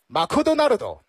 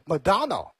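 First: It is said with a Japanese pronunciation. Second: It is said with an English pronunciation. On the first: "如果是日式英语的话那就是Makudonaldo" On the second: "发音英文的话是Madonna"

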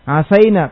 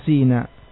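First: The vowel after the s is a. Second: The vowel after the s is i.

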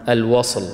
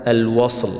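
The two takes are said the same way.

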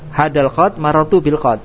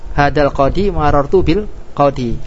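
First: Qadi loses its final vowel, ending in d. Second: Qadi keeps its final long i vowel. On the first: The speaker calls it wrong. "Mana yang marju?" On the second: The speaker calls it right. "mana yang roji?"

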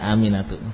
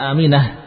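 First: The name ends in a 'tu' sound. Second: The name ends in a breathy 'ah' sound. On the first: The speaker calls it right. "tapi ahsan. Ya Aminatu" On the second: The speaker calls it wrong. "Huruf taknya jangan dibaca Aminah"

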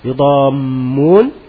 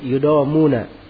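First: The m sound is held long, doubled. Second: The m sound is short, single. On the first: "mimnya ditasydid" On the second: "bisa tidak ditasydid"

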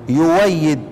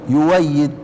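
The two takes are said the same way.

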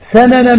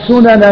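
First: The first vowel is a, as in sanan. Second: The first vowel is u, as in sunan. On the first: The speaker calls it right. "ولكن الفتح أولى" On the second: The speaker calls it wrong. "يصح أن يقال سنن من كان قبلكم"

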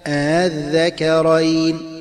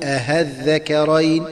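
First: The second hamza is softened between hamza and a. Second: The second hamza becomes a clear h sound. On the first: The speaker calls it right. "وتسهل الثانية هكذا" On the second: The speaker calls it wrong. "أن تبدل الهمزة المسهلة هاء خالصة هكذا"

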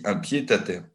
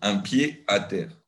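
First: The d of pied is linked to the next word. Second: The d of pied is silent, with no liaison. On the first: This is the modern standard pronunciation. "Je fais la liaison avec le pied" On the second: This was the usual pronunciation before the mid-19th century. "C'était de dire les États-Unis, un pied à terre"

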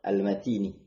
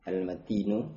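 First: The word ends with a final i vowel. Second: The word ends with a final u vowel. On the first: The word describes the strength. "boleh juga dibaca khafat" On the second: The word describes the Provider as a second predicate. "bisa dibaca dengan rafa' Al-Matin"

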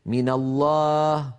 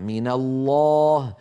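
First: The long vowel is thin and light. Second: The long vowel is thick and heavy. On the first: The speaker calls it wrong. "هكذا مرخية" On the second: The speaker calls it right. "فلا بد للألف فيه أن تكون مفخمة"

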